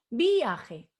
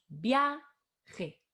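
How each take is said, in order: First: The stress falls on the i. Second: The stress falls on the a. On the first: The speaker calls it wrong. "No decimos viaje" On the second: The speaker calls it right. "decimos viaje. Entonces, la A es la que tiene la fuerza"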